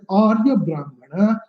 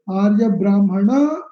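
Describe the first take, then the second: First: The accent falls at the beginning of the phrase. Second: The accent falls later in the phrase. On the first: It forms one kind of compound. "accented in the beginning" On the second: It forms a different kind of compound. "it is a different samasa"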